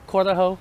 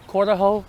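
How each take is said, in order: Both takes have the same delivery.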